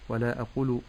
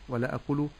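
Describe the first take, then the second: Both takes have the same delivery.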